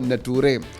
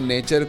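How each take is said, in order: First: The middle consonant is a 't' sound. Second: The middle consonant is a 'ch' sound. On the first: The speaker calls it wrong. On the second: The speaker calls it right.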